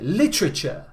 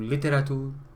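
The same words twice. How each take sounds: First: It is said with a native English accent. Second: It is said with a Spanish accent. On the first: "Si un hablante nativo dice a un español, ahora repite literature" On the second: "Una persona normal va a decir algo parecido a literature, mmm, literature, algo así"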